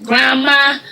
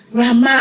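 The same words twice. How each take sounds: First: Calling out grandma. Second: High call, a little less loud; children calling grandma a second time; calling again. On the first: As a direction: call out for her, searching. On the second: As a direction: call out once more, searching. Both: Retold or imitated.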